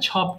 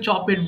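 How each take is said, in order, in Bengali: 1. শেষ অংশটি হলো একটি সাধারণ ছোট ব্যঞ্জনধ্বনি। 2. শেষ অংশটি হলো একটি অতিরিক্ত 'ed' দল। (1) "ছপড হবে" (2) "অনেকে ভুল করে চপেট বলে ফেলে"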